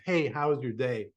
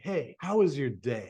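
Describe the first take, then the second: First: The voice is flat with little melody. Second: The voice is melodic and full of feeling. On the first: The words barely register with the listener. The speaker calls it wrong. "When you stay at that tonality, it almost gets skipped over" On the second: The speaker genuinely cares about the answer. The speaker calls it right. "There's a little more tonality. There's a little more melody"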